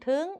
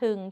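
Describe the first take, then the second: First: The syllable is said on a high tone. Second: The syllable is said on a low tone. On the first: "ตรี" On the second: "เอก"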